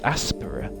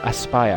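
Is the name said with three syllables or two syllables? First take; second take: three; two. First: The name is said with three syllables. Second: The name is said with two syllables. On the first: The speaker calls it wrong. "I don't know how you'd pronounce that" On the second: The speaker calls it right. "you're supposed to say Aspire"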